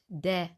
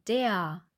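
First: The word ends without an open A-like sound. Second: The word ends in an open A-like sound. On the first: The speaker calls it wrong. "Wir sagen nicht de" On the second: The speaker calls it right. "wir sagen der"

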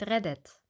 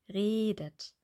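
First: The first e vowel is short. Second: The first e vowel is long. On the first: The speaker calls it wrong. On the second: The speaker calls it right.

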